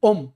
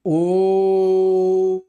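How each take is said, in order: First: The O vowel is held very briefly. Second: The O vowel is held about three times longer. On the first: "तो ये लघु उच्चारण है।" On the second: "सही उच्चारण करेंगे तो होगा ओ, यानी ओ को दो से ज्यादा समय देना है"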